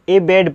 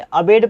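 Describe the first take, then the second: First: एबेड read with initial long e, ay-BAYD; first vowel as 'ay'. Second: अबेड read with initial schwa, uh-BAYD; first vowel as short 'uh'. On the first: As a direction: open एबेड on a clear 'ay'. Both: Shown as a demonstration. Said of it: "अ या ए बोल सकते हैं".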